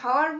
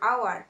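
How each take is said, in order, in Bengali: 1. শব্দটি একটি স্পষ্ট শোনা যায় এমন 'h' ধ্বনি দিয়ে শুরু হয়। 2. শব্দটি সরাসরি একটি স্বরধ্বনি দিয়ে শুরু হয়। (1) "আমরা তো হাওয়ার বলছি না" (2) "এইচ এর উচ্চারণ সাইলেন্ট থাকছে"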